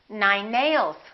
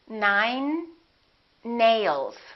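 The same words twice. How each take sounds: First: The two N sounds are linked together. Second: The two N sounds are pronounced separately.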